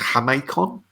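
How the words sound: It is said with a Spanish-style pronunciation. The speaker calls it right. "as it's Mexican, I suppose it's Jamaican"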